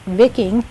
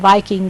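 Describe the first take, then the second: First: The word has its older, original pronunciation. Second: The word has its modern, everyday pronunciation. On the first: This is the historically correct form of the word. "the correct pronunciation of the word Viking is, in fact" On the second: This is how people commonly say it today. "I pronounce it Viking because uh, that's how we all say it now"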